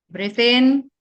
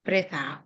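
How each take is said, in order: First: Loud "Breathe in" rising on "in"; swelling, raised "in" for the inhale; inhale cue. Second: Soft "Breathe out" with falling tune; "out" dropping away for the exhale; exhale cue. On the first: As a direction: stretch "in" upward and louder. Cueing the group's inhale. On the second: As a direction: let "out" sink gently. Cueing the group's exhale. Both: Shown as a demonstration.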